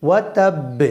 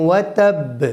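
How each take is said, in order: Both takes have the same delivery.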